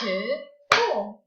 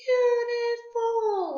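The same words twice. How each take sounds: First: "Beautiful" slow, in three detached beats; clapped-out syllables. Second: "Beautiful" very high and stretched; drawn-out model word. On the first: Teacher claps the word out with pupils, syllable by syllable. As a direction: say "Beautiful" as beau, ti, ful with gaps. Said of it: "Let's clap it out". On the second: Teacher has everyone say the word, high and drawn out. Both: Shown as a demonstration.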